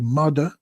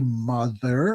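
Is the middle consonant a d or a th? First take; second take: d; th. First: The middle consonant is a d sound. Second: The middle consonant is a th sound. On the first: This is how it was said in the Bronx. "We would say mother, we always used to pronounce T H words with has a D" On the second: This is the standard pronunciation. "So we wouldn't say mother"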